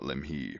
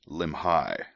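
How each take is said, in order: First: The name ends with an 'ee' sound. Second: The name ends with an 'eye' sound. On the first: The speaker calls it wrong. "not Limhi" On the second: The speaker calls it right. "if it ends in an I, you pronounce it like I"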